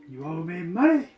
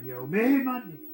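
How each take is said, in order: First: The word money carries the main stress. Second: The word me carries the main stress. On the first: The speaker calls it right. "George C. Scott had it right by emphasizing the word money" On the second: The speaker calls it wrong. "He wanted him to emphasize the word me"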